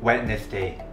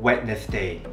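Both takes have the same delivery.

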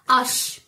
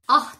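First: The word ends in an sh sound. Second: The word ends in an h sound. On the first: The speaker calls it right. "Bildiğimiz aş yani" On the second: The speaker calls it wrong. "Ah değil. Hatay'ın H'si değil"

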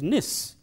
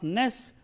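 First: The ending is pronounced 'nis'. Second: The ending is pronounced 'ness'. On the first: The speaker calls it right. "but it is nis" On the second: The speaker calls it wrong. "It is not ness"

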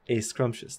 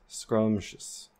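First: An extra vowel is added before the s sound. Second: The word begins directly with the s sound. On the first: "they will say a scrumptious" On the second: "can you pronounce the word scrumptious"

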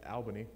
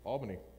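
First: Albany is said the way outsiders say it. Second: Albany is said the local New York way.

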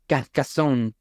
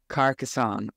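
First: The name is said with a strong French accent. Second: The name is said in a plain, less French way.

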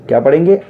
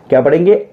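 Both takes have the same delivery.

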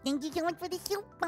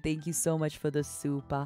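First: It is said in a put-on gremlin voice. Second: It is said in her normal voice.

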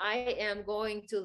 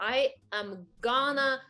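First: Every word is said fully and carefully. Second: 'Going to' is squeezed into 'gonna'. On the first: This is the careful, proper form. "ものすごいちゃんと言うと" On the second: This is the casual form. "砕いて言ったら"

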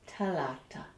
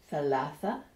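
First: The consonants are pronounced with t sounds. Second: The consonants are pronounced with th sounds. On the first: This is the Egyptian pronunciation. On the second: This is the standard pronunciation.

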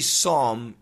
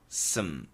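First: The syllable has a full vowel sound. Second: The syllable has almost no vowel sound. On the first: The speaker calls it wrong. "It's not really som" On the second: The speaker calls it right. "it's more sm"

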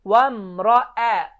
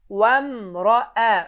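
First: The vowel after the r sounds light and thin. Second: The vowel after the r sounds light and thin.

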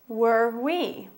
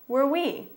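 First: It is said at a slower pace. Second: It is said at a faster pace.

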